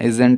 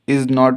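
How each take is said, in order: First: It is said as one short contracted word. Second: It is said as two full separate words. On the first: "को बोलते हैं इजेंट" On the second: "इज नॉट को बोल"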